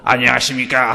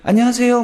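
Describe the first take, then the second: First: It is said in a deep, solemn holy voice. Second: It is said in a normal everyday voice.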